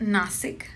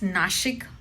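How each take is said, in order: First: The middle consonant is a plain 's' sound. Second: The middle consonant is an 'sh' sound. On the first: The speaker calls it wrong. "It's not नासिक" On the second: The speaker calls it right. "It's नाशिक"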